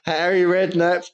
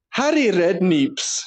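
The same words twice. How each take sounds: First: Said in the usual way. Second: "Redkneeps" slow, stretching the "kneeps" like neeps; pun name drawn out. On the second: Shown as a demonstration. Host unveiling his Scottish pun name for his co-host, slow and relishing. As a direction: land the joke name "Redkneeps" slowly, with a long ee. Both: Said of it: "Instead of Harry Redknapp".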